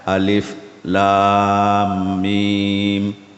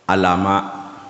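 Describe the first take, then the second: First: Each letter is named separately by its full name. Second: The letters are blended into short vowelled syllables. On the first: The speaker calls it right. "Jadi dibaca alif lam mim" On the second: The speaker calls it wrong. "Kalau dia baca punya baris, alama jadinya"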